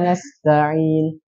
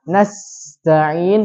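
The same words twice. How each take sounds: First: The s sound is cut short without airflow. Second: The s sound flows with a steady stream of air. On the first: The speaker calls it wrong. "Tidak dialirkan" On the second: The speaker calls it right. "yang harusnya dibacanya nasta'in"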